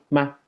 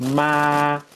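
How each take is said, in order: First: It is said with the tone marking questions. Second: It is said with the tone meaning mother. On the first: It marks a question. "esto se usa para hacer preguntas" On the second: It means mother. "que quiere decir mamá"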